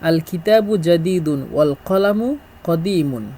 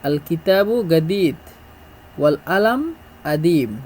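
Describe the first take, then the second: First: Standard Arabic, with a j sound and full endings. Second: Egyptian Arabic, with a hard g and dropped q. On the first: "প্রথমে হলো শুদ্ধ ভাষা" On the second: "মিশরের আঞ্চলিক ভাষা"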